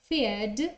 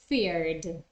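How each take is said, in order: First: The R before the final D is not pronounced. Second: The R before the final D is clearly pronounced. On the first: "in British English, people don't pronounce the R" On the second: "in American English, you will hear the R"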